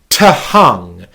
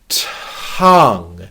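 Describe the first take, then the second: First: The word is split into two syllables. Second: The word is said as one syllable. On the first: The speaker calls it wrong. "What you're not doing is going to-hung" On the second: The speaker calls it right. "The rhythm is still one syllable"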